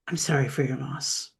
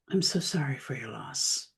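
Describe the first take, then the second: First: It is said quickly, as a perfunctory habit. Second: It is said after a pause, sincerely and warmly.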